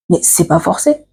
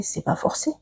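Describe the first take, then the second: First: Said in the usual way. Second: Breathy whisper, no voice at all; whispered aside. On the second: Real, not acted. Whispering to viewers about a suitor who won't take no. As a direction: drop to a bare whisper for the point.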